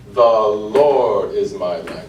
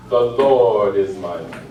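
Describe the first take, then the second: First: Very slow, "The" drawn out as a long note; quarter-note take. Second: Slow, with "The" short; half-note take. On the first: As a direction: hold "The" long before the rest. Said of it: "either do that as a quarter note". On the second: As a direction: clip "The" lightly and move on. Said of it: "Or you could do it as". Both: Shown as a demonstration.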